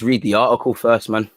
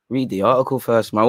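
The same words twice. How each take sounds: First: Slipping by accident into a Mancunian-sounding accent; accidental Mancunian-like accent. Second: Mock replay of a stray Mancunian-like accent; mimicking own accent slip. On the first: Real, not acted. Host about to read the article, accent slipping towards Mancunian. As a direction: let a stray northern English accent creep in. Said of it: "I don't know what accent that was". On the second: Host replaying what happened to his voice, mimicking the accent. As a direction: echo your accidental northern accent slip, puzzled. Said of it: "what happened to my voice?".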